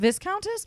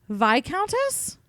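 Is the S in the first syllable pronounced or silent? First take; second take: pronounced; silent. First: The S in the first syllable is pronounced. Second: The S in the first syllable is silent. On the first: "instead of Viscountess" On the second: "You just don't say the S?"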